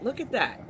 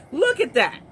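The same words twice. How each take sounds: First: Said in the usual way. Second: Louder disbelief. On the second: Real, not acted. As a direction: Look at that, louder and higher. Staring at the clip, repeating.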